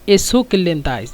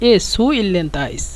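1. দ্বিতীয় শব্দটি k ধ্বনি দিয়ে শেষ হয়। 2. দ্বিতীয় শব্দটি গ্লটাল স্টপ (হামজা) দিয়ে শেষ হয়।

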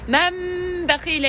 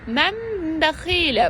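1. m sert; dudaklar sıkıca bastırılmış. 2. m yumuşak, burunsal; dudaklar hafifçe değiyor. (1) "Çok sıkı olarak birleştirmedim" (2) "dudaklarımı çok serbest bir şekilde birleştirdim"

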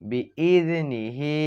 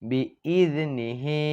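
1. শব্দটি শেষে একটি হ্রস্ব স্বরধ্বনি দিয়ে শেষ হয়। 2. শব্দটি শেষে একটি হ্রস্ব স্বরধ্বনি দিয়ে শেষ হয়।

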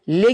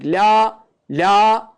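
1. Ünlü kısa, dar bir 'e' sesi. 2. Ünlü uzun, açık bir 'a' sesi. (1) "Le gibi yapılmayacak" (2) "La uzatılacak, ağız açılacak"

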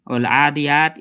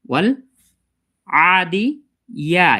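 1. 'ya' ধ্বনিটি হালকা ও অস্পষ্টভাবে বলা হয়েছে। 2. 'ya' ধ্বনিটি স্পষ্ট ও পূর্ণভাবে বলা হয়েছে। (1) "এরকমভাবে যদি পড়ে থাকে তাহলে আমাদের ভুল হচ্ছে" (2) "ইয়াটাকে ভালোভাবে আমাদের উচ্চারণ করা দরকার"

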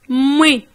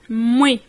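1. La voyelle initiale est supprimée ; ça commence par m. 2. La voyelle initiale est supprimée ; ça commence par m.

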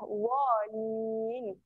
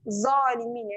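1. Konsonan pertama ialah bunyi dh emfatik. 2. Konsonan pertama ialah bunyi z biasa. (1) "Keluarkan lidah sikit dekat hujung lidah. Cucuk hujung gigi atas" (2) "Kalau kita tak keluarkan lidah, dia akan jadi zalimin. Yang tu bunyi zai"

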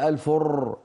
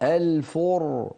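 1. الراء تُرَدَّد بعدة نقرات. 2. الراء صوت واحد، غير مرتعش. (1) "رر، سمعاني؟ رر، هذا ما بيصح أبدا" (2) "الفر وليس الفر"

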